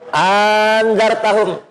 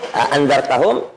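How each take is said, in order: First: The second glottal stop becomes a long vowel. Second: Both glottal stops are pronounced clearly. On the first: "mengganti hamzah yang kedua dengan alif, jadi panjang" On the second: "dengan membaca jelas hamzahnya"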